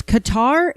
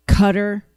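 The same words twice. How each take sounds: First: "Qatar" said kuh-TAR, stress on the second syllable with a clear open "tar"; correct Qatar. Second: "Qatar" said KUH-ter, stress on the first syllable, r-colored ending; mocking the wrong Qatar. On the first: Shown as a demonstration. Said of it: "it's Qatar". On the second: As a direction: echo the anchor's "Qatar" as KUH-ter, with disdain. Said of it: "Can we stop saying".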